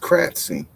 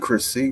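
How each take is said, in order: First: The ending sounds like 'cratsy', with a t. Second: The ending sounds like 'crissy', without a t. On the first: The speaker calls it right. "It's Cratsy" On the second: The speaker calls it wrong. "It ain't Chrissy"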